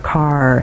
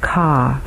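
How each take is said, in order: First: The word ends with a clear r sound. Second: The word ends without an r sound. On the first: The speaker calls it right. "I would really use that R" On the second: The speaker calls it wrong. "in the UK English, we normally hear things like ca for car"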